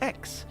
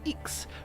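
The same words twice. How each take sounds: First: The letter name is said the English way. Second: The letter name is said the French way. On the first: "rather than X" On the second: "the French say X"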